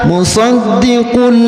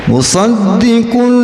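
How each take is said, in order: Both takes have the same delivery.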